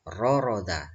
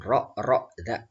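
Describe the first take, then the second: First: The syllables flow smoothly without glottal catches. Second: The syllables are pressed with glottal catches. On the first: The speaker calls it right. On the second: The speaker calls it wrong.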